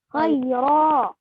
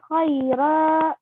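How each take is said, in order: First: The r is heavy, with an open mouth. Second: The r is light and held back. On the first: The speaker calls it right. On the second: The speaker calls it wrong.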